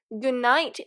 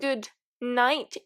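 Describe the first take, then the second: First: The d sound is dropped, one word. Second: The d sound is pronounced clearly. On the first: "as if it was one word and as if there was absolutely no the sound" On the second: "They do not really pronounce good night"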